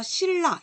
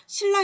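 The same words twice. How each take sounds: First: 신라 said as "sil-la" with a double l; liquid assimilation. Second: 신라 pulled apart as "sin-la", keeping the n; unassimilated spelling pronunciation. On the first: Teacher showing how it is read, liquid assimilation. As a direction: turn the n of 신라 into l. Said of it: "이렇게 읽어요". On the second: Teacher asking whether anyone reads so, unassimilated spelling pronunciation. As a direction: say 신라 by its letters, n then l. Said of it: "이렇게 읽는 사람 있어요". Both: Shown as a demonstration.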